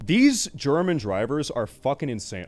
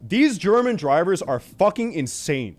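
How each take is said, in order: First: Said in the usual way. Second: Louder and higher, every word hammered; emphatic declaration. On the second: Shown as a demonstration. To the viewers about German drivers, a loud emphatic rant. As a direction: declare it boldly like a verdict. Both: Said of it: "I'm just gonna say it".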